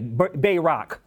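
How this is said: It is said with a Detroit-style pronunciation. "I'm going to say it the, you know, Pierre Detroit way"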